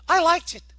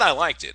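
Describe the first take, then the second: First: It is said in a put-on woman's voice. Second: It is said in his own normal voice.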